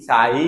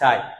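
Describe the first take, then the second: First: The final vowel is drawn out and full. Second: The final vowel is said quickly and short. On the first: The speaker calls it wrong. "এরকম বলছি না" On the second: The speaker calls it right. "এখানে রশ্মি যেটা আছে এটা আমি খুব তাড়াতাড়ি বলেছি"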